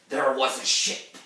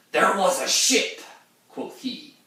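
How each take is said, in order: First: Said in the usual way. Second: Much higher, louder put-on sailor voice; old mariner impression. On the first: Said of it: "letting my natural accent come out". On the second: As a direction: croak it out like an old sea captain. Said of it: "back to the impression".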